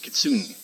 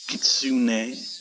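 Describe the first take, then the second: First: The final e is dropped and not pronounced. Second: The final e is pronounced as a vowel.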